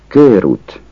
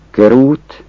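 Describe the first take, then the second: First: Körút with a long ő, kőrút; long-vowel körút. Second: Körút with a short ö; short-vowel körút. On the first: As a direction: say körút holding the first vowel. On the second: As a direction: say körút with a quick ö. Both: Shown as a demonstration. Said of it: "Ha ön hosszú ővel".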